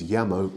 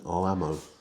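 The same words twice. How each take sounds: First: The double L is said like a y. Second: The double L is said like an l. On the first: The speaker calls it right. "the double L sound is y in Spanish" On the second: The speaker calls it wrong. "rather than llamo"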